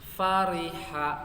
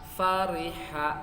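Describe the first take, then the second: The two takes are said the same way.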